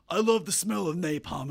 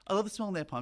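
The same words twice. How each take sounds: First: It is said in a haughty, declaring way. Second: It is said in a restrained, tempered way. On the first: The line is declared with great confidence. "deliver it with some, you know, haughty" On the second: The speaker is trying to get someone's attention. "It's actually very restrained. It's tempered"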